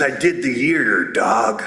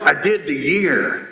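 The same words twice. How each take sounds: First: Deep, low tough-guy voice; huge tough guy. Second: Slow, lower-pitched repeat; tough guy repeating. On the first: Huge tattooed man confiding after the convention, low tough guy. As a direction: drop low like a big tattooed dude. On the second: Huge tattooed man repeating himself to the speaker, slow and low. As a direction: spell it out slowly, low. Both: Acted.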